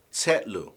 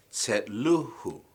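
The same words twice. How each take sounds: First: Said in the usual way. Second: Tsetluhu drawn out slowly, stress on LU; stress moved along. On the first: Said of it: "the stress moves back". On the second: Shown as a demonstration. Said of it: "stress moves back one more syllable".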